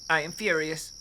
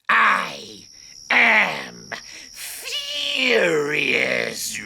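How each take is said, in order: First: It sounds mild, not really furious. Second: It sounds intimidating and menacing.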